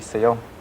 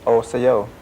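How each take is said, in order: First: The greeting starts straight on the consonant. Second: The greeting starts with an extra vowel sound. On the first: This is the speaker's own regional, shortened form. "the dialectal form, which is the style that I talk, which is a contracted form" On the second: This is the standard form of the greeting. "the way you say hello is osayo"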